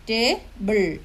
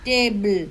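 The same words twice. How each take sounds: First: ടേബിൾ broken as ടേ, pause, ബിൾ; ടേബിൾ with a clear gap before ബിൾ; split into two syllables. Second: Said in the usual way. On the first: Shown as a demonstration. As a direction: say ടേബിൾ in two separate beats, ടേ then ബിൾ. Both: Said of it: "രണ്ടെണ്ണം കാണും".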